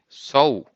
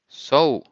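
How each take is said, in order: The two takes are said the same way.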